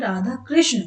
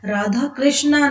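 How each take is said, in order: First: The name ends without a long 'aa' vowel. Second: The name ends with a long 'aa' vowel. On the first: It names the god. The speaker calls it right. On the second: It names Draupadi rather than the god. The speaker calls it wrong. "Radha कृष्णा नहीं"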